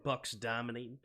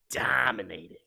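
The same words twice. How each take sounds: First: Said in the usual way. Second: A breathy whispered "Dominating."; whispering. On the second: Shown as a demonstration. Repeats call as whisper.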